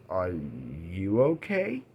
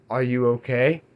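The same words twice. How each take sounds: First: "Are you okay?" much softer and slow, rising gently; gentle concern. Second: Said in the usual way. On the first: Retold or imitated. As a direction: ask it tenderly, barely above a murmur. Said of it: "And she goes". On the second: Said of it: "he looks at her and he's like".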